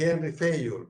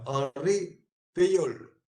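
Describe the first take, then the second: First: The first name has an English pronunciation. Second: The first name has a French pronunciation. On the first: The speaker calls it wrong. "eso es una mezcla" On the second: The speaker calls it right. "así se pronuncia"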